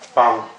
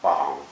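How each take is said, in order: First: The pitch is short, light and unstressed. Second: The pitch dips low and then rises. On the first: "the neutral tone" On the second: "the falling rising tone"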